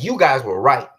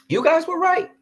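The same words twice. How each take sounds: First: Said in the usual way. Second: You guys were right in a much higher, squeaky voice; sarcastic falsetto concession; high mocking squeak. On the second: Shown as a demonstration.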